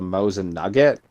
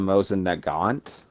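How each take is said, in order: First: The second word sounds like 'nugget'. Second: The second word sounds like 'nagant'. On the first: The speaker calls it wrong. "a lot of people say the the Mosin Nugget" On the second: The speaker calls it right. "That's the proper pronunciation of it"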